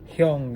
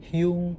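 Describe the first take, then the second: First: The vowel follows the Hangul pronunciation. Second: The vowel follows the Latin spelling. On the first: The speaker calls it right. "kalau di Hangul itu kan sangat jelas, sangat clear" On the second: The speaker calls it wrong.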